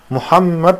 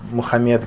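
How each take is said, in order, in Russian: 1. Звук m в середине долгий и удвоенный. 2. Звук m в середине короткий и одиночный.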